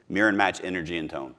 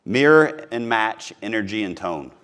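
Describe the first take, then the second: First: Said in the usual way. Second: Each word laid down slowly; slow emphasis. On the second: Shown as a demonstration. Coach to sales agents, slow and deliberate. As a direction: spell out Mirror and match energy and tone word by word. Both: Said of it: "That's a big one".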